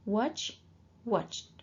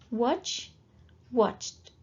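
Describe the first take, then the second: Both takes have the same delivery.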